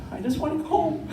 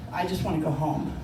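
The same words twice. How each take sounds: First: Much higher, pleading repeat; pleading whine. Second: Said in the usual way. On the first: Retold or imitated. Exhausted teen learner wanting out, pleading whine. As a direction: plead to be let off.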